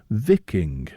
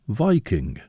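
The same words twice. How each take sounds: First: It is split as vik plus ing. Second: It is split as vi plus king. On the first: The word means people belonging to bays. The speaker calls it right. "derived from vik, an old term for bay, and ing" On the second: The word seems to contain king, as in monarch. The speaker calls it wrong. "as if the Vikings used to be some special kind of monarchs"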